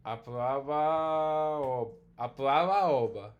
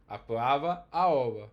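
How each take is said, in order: First: "aplava oba" run together under a single tone, slow and loud; one tone lost. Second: Apuava and aoba each with its own tone, loud and clear; two tones. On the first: Teacher showing a student the merged tone, slow and loud. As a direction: say "aplava oba" slowly, letting one tone drop away. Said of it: "So we get it like this". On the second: Teacher showing a student the two tones, loud and deliberate. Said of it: "Whereas here, we actually lose the tone". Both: Shown as a demonstration.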